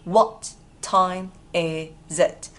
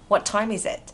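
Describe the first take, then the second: First: It is said slowly, word by word. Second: It is said fast with the words linked.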